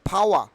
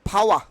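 First: The final r is silent. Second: The same.

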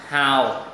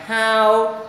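First: The pitch dips low and comes back up. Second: The pitch stays high and level. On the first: "Thanh 3 đọc giống dấu huyền là hào" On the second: "đọc ngang ngang how"

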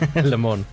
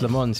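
First: The final S of Mans is silent. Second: The final S of Mans is pronounced. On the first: The speaker calls it right. "You said it right" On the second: The speaker calls it wrong. "Even I said it wrong with the S on the end"

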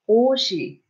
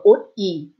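First: The middle consonant sounds like 'sh'. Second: The middle consonant sounds like 't'. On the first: The speaker calls it right. "it sounds like oshi" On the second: The speaker calls it wrong. "instead of oti"

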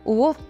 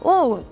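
First: The sound is at a low pitch. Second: The sound is at a medium pitch. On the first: "from low tone" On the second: "to little more high"

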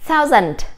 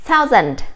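Both takes have the same delivery.

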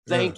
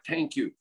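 First: Thank begins with a soft th sound. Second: Thank begins with a hard t sound. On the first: The speaker calls it right. "teach you the, you know, the thank you" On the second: The speaker calls it wrong. "not thank you"

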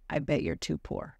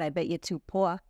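First: It is said in the speaker's ordinary accent. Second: It is said in a put-on New York accent.

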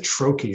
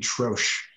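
First: The word is given an American-style pronunciation. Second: The word is given a French-style pronunciation. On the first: The speaker calls it wrong. "here in the US, we pronounce it troche, and it just bugs me" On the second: The speaker calls it right. "It's a French word. It should be troche"

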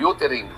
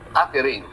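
First: The first vowel is a rounded 'oo' sound. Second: The first vowel is an open 'uh' sound. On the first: The speaker calls it wrong. "pero sasabihin, utering" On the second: The speaker calls it right.

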